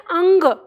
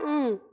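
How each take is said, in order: First: It ends with a clear hard g sound. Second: It ends in a pure nasal hum. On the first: The speaker calls it wrong. "अंग नहीं कहते" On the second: The speaker calls it right. "इस तरह का sound, यानी नाक में"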